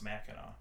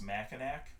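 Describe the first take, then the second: First: The name is said the old French way. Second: The name is said the English way. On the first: The speaker calls it right. "it's the old French pronunciation. So it actually is pronounced Mackinac" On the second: The speaker calls it wrong. "you think it's pronounced Mackinac"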